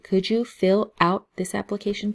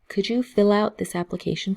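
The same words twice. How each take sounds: First: Each word is said separately with small breaks. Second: The words run together without breaks. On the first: The speaker calls it wrong. "they don't say" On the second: The speaker calls it right. "people um, will say"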